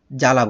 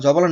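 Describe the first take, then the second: First: জ্বালা as ja-la, b silent; two syllables in জ্বালা, no b sound; correct pronunciation. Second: জবালা as jo-ba-la; wrong pronunciation. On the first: Teacher giving the form we say, জ্বালা with silent b. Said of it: "জ্বালা বলছি". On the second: Teacher contrasting the form we avoid, জবালা with b sounded. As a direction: keep the b audible in জবালা. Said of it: "না বলে কি বলছি". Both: Shown as a demonstration.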